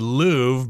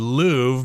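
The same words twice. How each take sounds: First: It is said with an English pronunciation. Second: The same.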